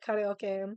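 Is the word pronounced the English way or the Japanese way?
Japanese. It is said with a Japanese pronunciation. The speaker calls it right. "That's how you say it"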